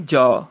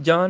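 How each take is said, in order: First: ਜਾ with a clean oral 'aa'; corrected vowel. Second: ਜਾਂ with a nasal ending; nasalised misreading. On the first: Teacher correcting, ਜਾ as pure 'jaa'. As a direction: say ਜਾ with no nasal ending. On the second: Teacher showing the mistake, ਜਾਂ nasalised. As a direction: let ਜਾਂ end in the nose, 'jaan'. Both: Shown as a demonstration. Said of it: "ਜਾਂ ਨਹੀਂ, ਜਾ".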